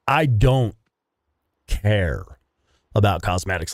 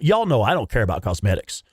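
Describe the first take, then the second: First: "I don't ... care ... about cosmetics" with a pause before care and about; emphatic pauses. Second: Said in the usual way. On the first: Real, not acted. Repeats the claim for emphasis.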